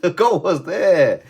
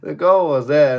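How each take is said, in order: First: Laughing disbelief. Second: High and louder, stunned at the miss; exasperated loud repeat. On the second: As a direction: hammer home that the goal was open. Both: Real, not acted.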